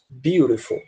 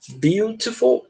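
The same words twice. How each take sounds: First: The middle t sounds like a quick r. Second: The middle t is a clear, crisp t. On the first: "Com esse T com som de R" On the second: "com esse T aqui bem enfatizado"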